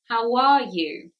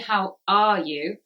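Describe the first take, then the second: First: The words are joined with a w sound. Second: The words are separated with no w sound. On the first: The speaker calls it right. "the w sound actually comes in the middle" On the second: The speaker calls it wrong. "We don't say how are you?"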